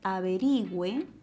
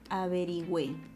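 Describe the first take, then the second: First: The stress is on the second-to-last syllable. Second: The stress is on the last syllable. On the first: "el acento está en la penúltima sílaba" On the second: "el acento está en la última sílaba"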